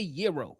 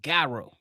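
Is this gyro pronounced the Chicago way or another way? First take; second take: another way; Chicago way. First: It uses the pronunciation not used in Chicago. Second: It uses the pronunciation used in Chicago. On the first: This is how people outside Chicago say it. The speaker calls it wrong. "we don't say Euro" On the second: This is how locals say it. The speaker calls it right. "We say Gyro in Chicago"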